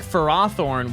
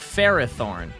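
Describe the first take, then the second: First: The first part does not sound like 'Ferris'. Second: The first part sounds like 'Ferris'. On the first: This is how the anime says it. The speaker calls it wrong. "the anime pronounces it like Farathorn, which doesn't sound right" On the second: This follows the name's origin in 'Ferris'. The speaker calls it right. "it should be pronounced like Ferrothorn"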